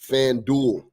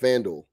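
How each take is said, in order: First: Fan and duel are split apart. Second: Fan and duel run together as one. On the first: The speaker calls it wrong. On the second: The speaker calls it right.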